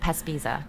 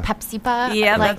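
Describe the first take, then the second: First: The sounds come in the order Pespisa. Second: The p and s sounds are swapped: Pepsipa. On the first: The speaker calls it right. "Let me say it" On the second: The speaker calls it wrong. "I always want to say"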